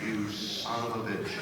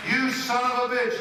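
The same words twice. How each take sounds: First: Laughing curse. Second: Mock outburst. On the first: Retold or imitated. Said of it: "I thought that was funny". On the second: Shown as a demonstration. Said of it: "Is that funny?".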